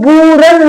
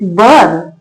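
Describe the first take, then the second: First: The vowel is a long oo sound. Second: The vowel is a central er sound. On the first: The speaker calls it wrong. "इसको बूरन नहीं पढ़ेंगे" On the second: The speaker calls it right. "इसको क्या पढ़ेंगे B यू आर N बर्न"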